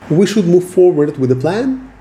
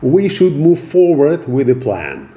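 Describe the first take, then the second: First: The voice rises at the end. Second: The voice falls at the end. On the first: It sounds like asking for permission. The speaker calls it wrong. "When your sentences end on a rising tone" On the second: It sounds like the decision is already made. The speaker calls it right. "your statements going down and lower"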